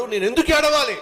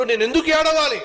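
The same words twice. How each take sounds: First: Raised, stress on ఎందుకు; defiant question. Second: Higher again, peak on ఏడవాలి; second take, ఏడవాలి pushed highest and louder; triumphant question. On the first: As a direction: ask ఎందుకు with lifted confidence. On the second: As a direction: lift ఏడవాలి high in triumph. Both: Acted. Hannah's new faith voiced.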